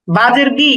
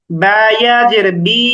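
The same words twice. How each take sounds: First: Said in the usual way. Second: Slow, final "বি" held long; madd elongation. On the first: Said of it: "হরকতের উচ্চারণ তাড়াতাড়ি করতে হয়". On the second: Shown as a demonstration. Teacher showing ya as madd letter, "বি" drawn out. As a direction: stretch out the vowel of "বি". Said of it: "সেটা মাদের হরফ হয়ে যাবে".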